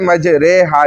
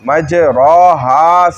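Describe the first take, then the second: First: The vowel after r leans toward e. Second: The vowel after r is an open a. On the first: This is the form recited with imala. "उससे मज रे हा इसको बनाया गया" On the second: This is the original form of the word. "असल में ... मज रो हा सही लफ्ज है"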